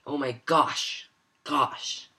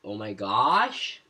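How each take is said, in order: First: GOSH starting high and falling sharply; dropping pitch. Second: GOSH drawn out and sweeping upward; rising pitch. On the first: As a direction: say "oh my gosh" with a quick drop on "gosh". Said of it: "just dropping your pitch immediately". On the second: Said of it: "you're increasing the pitch". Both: Shown as a demonstration.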